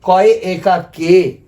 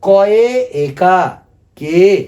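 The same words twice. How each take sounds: First: कॉय एकार के said very slowly, syllable by syllable; teacher slowly voicing कॉय एकार के for pupils; slow demonstration. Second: Teacher asks class to repeat, very slow; slow call to repeat. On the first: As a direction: model कॉय एकार के slowly for students to copy. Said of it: "माने बांग्ला में हम लोग बोलेंगे". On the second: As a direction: lead the class through कॉय एकार के, drawn out. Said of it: "आप लोग भी बोलिएगा मेरा साथ". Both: Shown as a demonstration.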